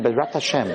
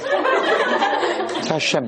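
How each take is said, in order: First: Said in the usual way. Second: Laughing mock. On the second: Mocking the boy's phrase, laughing.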